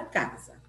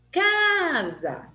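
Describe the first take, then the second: First: Said in the usual way. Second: CA in "Casa" long, high and forceful; first syllable of "Casa" held high, then dropped; stress on CA. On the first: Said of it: "pronunciadas com mais força". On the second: Shown as a demonstration. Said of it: "Quem que eu falei com mais força?".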